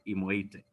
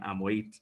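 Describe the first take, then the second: First: The name begins with an 'i' sound. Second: The name begins with an 'a' sound. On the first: The speaker calls it right. "now I've gotten it right" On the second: The speaker calls it wrong. "mispronouncing uh, his name with Amoit"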